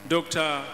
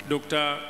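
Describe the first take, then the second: No difference in how they are said.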